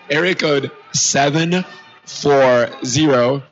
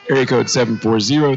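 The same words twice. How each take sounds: First: It is said slowly. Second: It is said at normal speed.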